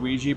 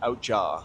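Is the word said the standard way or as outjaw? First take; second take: standard; outjaw. First: The word is said the standard way, wee-jee. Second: The word is said like out-jaw. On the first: The speaker calls it right. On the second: The speaker calls it wrong.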